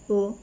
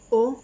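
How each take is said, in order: First: The vowel is a closed o sound. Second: The vowel is an open o sound. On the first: "Fermé"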